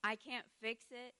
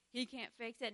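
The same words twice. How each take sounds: First: I leaned on first; stress on I. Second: He leaned on first; stress on HE. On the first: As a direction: push the word I, then let it fall. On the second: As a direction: push the word He, then let it fall. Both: Retold or imitated. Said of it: "you're like".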